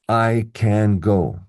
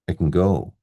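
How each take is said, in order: First: Can is stressed with a full clear vowel. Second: Can is unstressed with a reduced schwa vowel. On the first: The speaker calls it wrong. "I must say every word clearly... Maybe that's my robot approach" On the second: The speaker calls it right. "If it were positive, I would unstress it. So I would say schwa"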